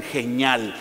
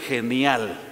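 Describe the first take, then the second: First: "genial" said as "heh-NYAL", ni squashed into ñ; slangy mispronunciation. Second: Said in the usual way. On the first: Shown as a demonstration. Preacher mimicking youngsters' slang, "genial" mispronounced as "geñal". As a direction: run the ni of "genial" together into one ñ sound. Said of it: "algunos ni saben pronunciar". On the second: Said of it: "algunos ni saben pronunciar genial".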